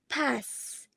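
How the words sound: It is said with a General American vowel. "in general American, in the same word, pass is pronounced with the a"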